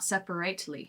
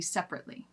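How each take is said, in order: First: The middle vowel is fully said, giving more syllables. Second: The middle vowel is dropped, giving fewer syllables. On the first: The speaker calls it wrong. "not separately" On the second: The speaker calls it right. "it's always going to be separately"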